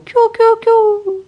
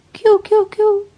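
First: High, loud hooting bird call; clear distant call. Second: High, slow hoot, held back; subdued answering call. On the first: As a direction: imitate a far-away owl calling out clearly. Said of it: "Potei sentire chiaramente ... in lontananza". (richiamo acuto di civetta, chiaro e lontano) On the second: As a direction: answer the owl's call gently and discreetly. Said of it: "ripetei chiù chiù chiù sommessamente". (richiamo acuto di civetta, sommesso) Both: A narrator's reading.

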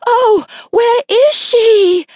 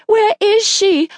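First: Loud, high, long-drawn wail; frantic wail. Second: High, slow, stretched cry; frantic. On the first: Mother desperate to find her child, wailing frantically. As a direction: wail it out, louder and slower, in panic. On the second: Mother asking stranger for her child, frantic. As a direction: demand it frantically, pitched way up. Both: A narrator's reading.

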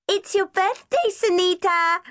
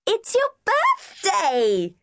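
First: Put-on high, loud child's yell; little girl yelling. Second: Put-on very high, slow child's shout; little girl roaring. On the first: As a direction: shout it like an excited five-year-old. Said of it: "yelled Debbie". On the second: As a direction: roar it even louder like a five-year-old. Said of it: "Debbie roared even more loudly". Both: A narrator's reading.

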